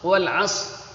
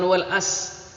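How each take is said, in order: First: The s sound is heavy and emphatic. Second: The s sound is light and plain. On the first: The speaker calls it right. "pakai shot" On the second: The speaker calls it wrong.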